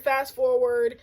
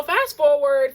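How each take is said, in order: First: Said in the usual way. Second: "fast forward" stretched slowly, a bit louder; drawn-out fast forward. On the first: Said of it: "So fast forward". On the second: Shown as a demonstration. Telling viewers the story jumps ahead, a slow, stretched-out "fast forward".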